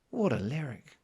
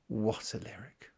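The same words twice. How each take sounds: First: Said in the usual way. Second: Slow hushed whisper. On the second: Real, not acted. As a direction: breathe it out in awe. Whispered admiration of the lyric.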